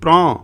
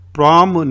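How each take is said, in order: First: The word ends in a nasalized vowel, no m. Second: The word ends with a full closed m sound. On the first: The speaker calls it right. "बिंदी होती ऊपर, एम नहीं होता" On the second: The speaker calls it wrong. "प्राम नहीं"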